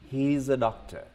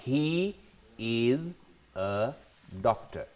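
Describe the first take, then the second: First: 'He' and 'is' are joined into one word, 'he's'. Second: 'He' and 'is' are said as two separate words. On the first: "But you can combine he plus is, a and doctor" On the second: "I'll give you an example"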